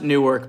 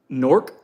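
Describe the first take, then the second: First: The name is said with two full syllables. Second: The name is squeezed into one syllable. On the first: It is said this way so listeners recognize the name. "I pronounced it Newark because I just wanted to make sure people know what I'm saying" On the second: This is how the name is actually pronounced. "It's Nork"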